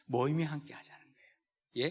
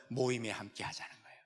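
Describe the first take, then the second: First: 모임에 restated a bit firmer; firmer repeat. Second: Soft emphasis. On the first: Pastor to congregation, repeating 모임에 firmly. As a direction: say 모임에 again with weight. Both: Shown as a demonstration. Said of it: "repeated emphasis".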